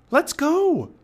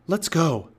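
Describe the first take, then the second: First: Very high, loud urgent cry; Annie crying out. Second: Moderately raised, higher voice; crying out. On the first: Girl urging the boy to leave the storm, crying out high. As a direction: urge him along in a high shout. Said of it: "cried Annie". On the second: Boy reaching the treehouse, calling out urgently. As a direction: call it out briskly. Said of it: "he cried". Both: A narrator's reading.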